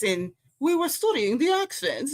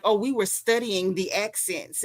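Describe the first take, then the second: First: High, put-on prissy voice, pitched well up; mocking a pretentious actor. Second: Said in the usual way. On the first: Mocking actors who fake Southern accents, high put-on voice. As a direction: mimic a self-important actor bragging about accent study. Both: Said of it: "they all come in with this fake Southern mess".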